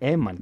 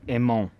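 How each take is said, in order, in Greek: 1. Το όνομα λέγεται με 'a' στη δεύτερη συλλαβή. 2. Το όνομα λέγεται με 'o' στη δεύτερη συλλαβή. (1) "Έμαν και όχι Εμόν" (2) "και όχι Εμόν"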